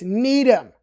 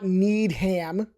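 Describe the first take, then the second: First: The ending is reduced to a weak syllable. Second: The ending is said fully as ham. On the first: The speaker calls it right. "It's Needham" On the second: The speaker calls it wrong. "So it's not Needham. Nobody needs ham"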